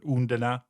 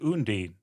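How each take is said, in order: First: The name ends with a pronounced final vowel. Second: The name ends without a final vowel sound. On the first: "in German, you would actually pronounce the E at the end" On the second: "I've been saying it Undine"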